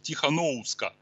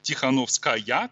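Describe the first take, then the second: First: The name ends with a plain 'a' sound. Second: The name ends with an 'aya' sound. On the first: It treats the name as Belarusian. The speaker calls it right. "по-белорусски, на белорусский манер" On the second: It treats Belarus as within Russia's sphere of interest. The speaker calls it wrong. "это вы говорите на русский манер"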